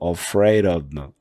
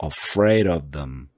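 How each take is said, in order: First: The words "of them" are reduced and run together. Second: The same.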